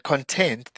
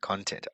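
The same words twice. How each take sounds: First: The stress is on the second syllable. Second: The stress is on the first syllable. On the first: It is the adjective. "with the stress on the second word is actually the the adjective" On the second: It is the noun. "with the stress on the first syllable is the noun"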